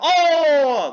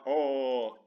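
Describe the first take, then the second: First: The word is screamed loudly. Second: The word is said quietly and plainly. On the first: "he said, oh! Like that" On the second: "not oh"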